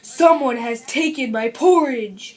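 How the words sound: It is said in a big, deep voice.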